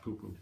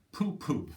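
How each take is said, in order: First: Said in the usual way. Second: Louder dismissive "Pooh, pooh"; dismissive Madeline. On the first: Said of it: "not poo-poo". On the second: Acted. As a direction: brush off the tiger with "Pooh, pooh". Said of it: "Madeline just said".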